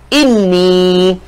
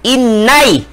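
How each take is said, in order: First: The word ends with a long 'ee' vowel. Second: The word ends with an 'ai' diphthong. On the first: "dia akan meraihkan ya mati tuan. Maka sebutannya apa?" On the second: "kalau tidak meraihkan sebutan ya ya mati"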